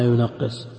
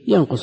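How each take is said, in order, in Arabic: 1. يُنطق مع تضعيف الحرف الأوسط. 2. يُنطق على صيغة الثلاثي المجرد. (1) "وإذا ضعفناه قلنا ينقص" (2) "إذا قلنا الثلاثي متعدي بنفسه ينقص النصاب"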